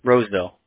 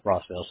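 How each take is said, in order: First: The first vowel sounds like in 'rose'. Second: The first vowel sounds like in 'moss'. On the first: The speaker calls it right. "Roseville, yep" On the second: The speaker calls it wrong. "I was saying Rossville before"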